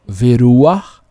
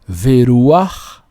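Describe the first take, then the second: Both takes have the same delivery.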